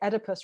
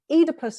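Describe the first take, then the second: First: The name is said with an American pronunciation. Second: The name is said with a non-American English pronunciation. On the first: This is how people in the States say it. "when I come and gig in the States, people say, oh, you know, we say Oedipus wrong" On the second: This is how the speaker says it. "which is what I would say"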